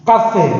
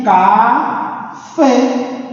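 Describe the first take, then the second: First: Said in the usual way. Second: "Café" split slowly into syllables, landing on "fé"; stress on FÉ. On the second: Shown as a demonstration. ("Café" devagar, sílaba a sílaba, com acento tónico em "fé") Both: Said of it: "a sílaba tônica está aqui".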